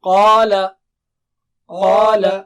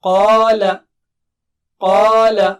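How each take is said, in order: No difference in how they are said.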